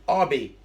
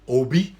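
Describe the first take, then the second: First: The name is said with an English-style pronunciation. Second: The name is said with a Nigerian pronunciation. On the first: The speaker calls it wrong. "It's not Obi. Okay, don't anglicize the name" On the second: The speaker calls it right. "That's how we pronounce it"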